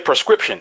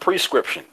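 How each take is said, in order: First: The word begins with a 'per' sound. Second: The word begins with a 'pre' sound. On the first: This is how people usually say it. The speaker calls it wrong. "you say prescription" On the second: This is the correct pronunciation. The speaker calls it right. "That's the correct way to pronounce it. It's pronounced prescription"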